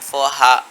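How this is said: The r sounds are dropped, British style. "এখানেও আরটা উচ্চারণ হবে না"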